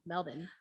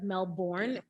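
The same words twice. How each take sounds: First: The last syllable is a short 'bin' sound. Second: The last syllable is a full 'born' sound. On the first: "actually say it Melbourne, like M E L B I N" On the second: "at first that's how I used to say it ... that's how it's spelled"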